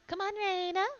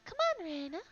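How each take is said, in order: First: The line is said more loudly and firmly. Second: The line is said softly and quietly. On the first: The speaker calls it right. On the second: The speaker calls it wrong.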